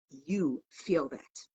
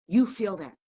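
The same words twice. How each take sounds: First: Drawn out, much softer and slower; softly, slowly, to the listeners. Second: Said in the usual way. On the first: Real, not acted. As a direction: let it sink in, slow and hushed. Preacher repeats line, softer and slower.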